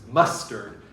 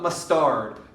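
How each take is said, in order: First: The stress is on the first syllable. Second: The stress is on the second syllable. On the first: The speaker calls it right. "It's mustard" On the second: The speaker calls it wrong. "It is not mustard"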